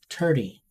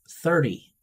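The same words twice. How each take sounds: First: It is said with an Irish accent. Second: It is said with an American accent. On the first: "In Ireland" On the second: "In America"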